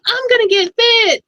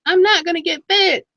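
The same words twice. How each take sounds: First: High, loud hammed-up enthusiasm; exaggerated squeal of determination; mock eager resolve. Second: Mock giving up. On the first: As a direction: imitate a gung-ho buyer, pitched way up. Acting out eager buyer's resolution. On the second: Acting out buyer giving up.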